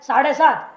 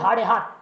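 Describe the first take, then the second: First: Both words begin with an s sound. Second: Both words begin with an h sound. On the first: "अब जैसे बोलना है" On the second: "बोलेंगे"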